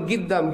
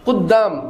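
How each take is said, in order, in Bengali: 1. শব্দটি একটি গ ধ্বনি দিয়ে শুরু। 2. শব্দটি একটি গভীর ক ধ্বনি দিয়ে শুরু। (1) "এরা বলে গিদ্দাম" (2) "কুদ্দাম অর্থাৎ সামনে"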